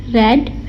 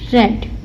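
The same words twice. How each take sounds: First: The vowel is short, like 'red'. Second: The same.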